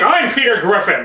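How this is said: It is said loudly and in-your-face. "very, like, in-your-face"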